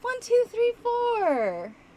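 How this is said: It sounds falsely friendly, masking dislike. The speaker dislikes the listener but hides it. "you're coming up uh, on somebody who you don't like, but you don't want them to know"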